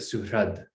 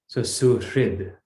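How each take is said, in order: First: The r is followed by an 'ra' sound. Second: The r is followed by an 'ri' sound. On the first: This is the Gujarati pronunciation. "in Gujarati, we say ra" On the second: This is the Sanskrit pronunciation. "it's the vowel r. So we say ri"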